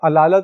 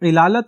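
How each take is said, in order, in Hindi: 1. शब्द 'a' स्वर से शुरू होता है। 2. शब्द 'i' स्वर से शुरू होता है। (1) "उर्दू में ये अलालत बोल दिया जाता" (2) "सही लफ्ज ये इलालत है"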